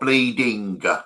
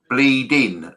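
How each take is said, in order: First: The word ends with a clear final g sound. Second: The word ends without a final g sound. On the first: This is how the English say it. The speaker calls it wrong. "not bleeding" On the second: This is how it is said in Dublin. The speaker calls it right. "the Dublin expression is bleeding"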